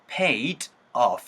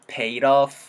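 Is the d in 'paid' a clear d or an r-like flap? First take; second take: clear d; flap. First: The d is a clear, separate d sound. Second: The d becomes a quick r-like flap. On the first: "해도 괜찮지만" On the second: "pay 러 사운드로 자연스럽게 연결되면서"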